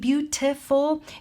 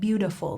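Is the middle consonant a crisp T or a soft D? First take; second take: crisp T; soft D. First: The middle consonant is a crisp, careful T. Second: The middle consonant is a soft, muted D. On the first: The speaker calls it wrong. "instead of saying beautiful" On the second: The speaker calls it right. "like a muted D sound"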